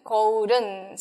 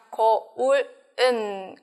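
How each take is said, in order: First: 거울은 run together as geo-u-reun; 거울은 linked smoothly into its particle; linked pronunciation. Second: 거울은 split as geo-ul, eun; slow 거울은 with a gap before 은; separated syllables. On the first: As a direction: turn the l of 거울은 into a flapped r. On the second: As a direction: keep the particle apart in 거울은, slowly. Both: Shown as a demonstration. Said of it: "Por la pronunciación".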